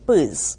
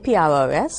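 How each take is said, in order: First: The letters are said together as one word. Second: Each letter is said separately. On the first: "we just pronounce the acronym" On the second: "the vets tend to call it by its acronym"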